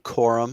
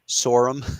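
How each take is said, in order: First: The name begins with a hard K sound. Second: The name begins with a soft S sound. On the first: The speaker calls it right. "Assuming that's a hard C" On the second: The speaker calls it wrong. "versus a soft C"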